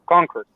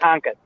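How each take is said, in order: First: The R sound is clearly pronounced. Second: The R sound is dropped, like an ah. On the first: "whenever you say the word Concord" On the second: "up there they say"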